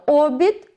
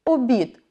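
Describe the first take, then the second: First: Обід stressed on a drawn-out first О; stress on first syllable. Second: Обід stressed on the last syllable, БІД; stress on second syllable. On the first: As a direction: hit the opening О in обід. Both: Shown as a demonstration. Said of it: "Так само".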